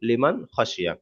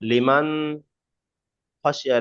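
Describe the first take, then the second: First: The n is read plainly and simply. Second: The n is not read plainly. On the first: The speaker calls it right. "একদম সিম্পল পড়তে হয়" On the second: The speaker calls it wrong. "এরকম বলা যাবে না"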